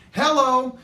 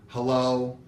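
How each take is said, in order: First: Much higher, loud thrilled hello; excited hello. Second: A mildly bothered, low hello; put-out hello. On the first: Grown daughter answering the phone, bursting with excitement. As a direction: greet the caller with real joy. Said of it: "Miss Excitement". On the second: Teen daughter picking up dad's call, mildly put out. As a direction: answer like the call is a nuisance. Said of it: "as if I have put her totally out". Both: Retold or imitated.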